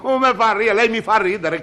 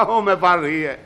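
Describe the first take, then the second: First: Higher laughing retake. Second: Chuckling through the words; laughing. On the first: Cameraman mocks the director. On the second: Cameraman laughing at the director's question. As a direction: laugh it off at him. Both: Acted.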